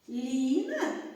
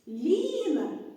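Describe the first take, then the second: First: It is said with a questioning intonation. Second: It is said with an exclaiming intonation. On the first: "із запитальною" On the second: "окличною інтонацією"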